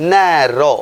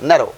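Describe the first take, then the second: First: ন্যারো drawn out slowly in two beats; split into syllables. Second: Said in the usual way. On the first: Shown as a demonstration. Teacher showing a word pronounced in two parts, syllable by syllable. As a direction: stretch both syllables of ন্যারো apart. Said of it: "দুইবার উচ্চারিত হলেও". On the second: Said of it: "এক syllable হিসেবেই গণ্য করি".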